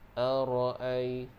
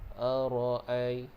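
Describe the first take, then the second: No difference in how they are said.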